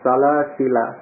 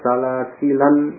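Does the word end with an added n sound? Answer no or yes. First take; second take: no; yes. First: The word ends in a plain vowel. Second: The word ends with an added n sound. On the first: "Dia tidak tanwin" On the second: "dibaca dengan tanwin"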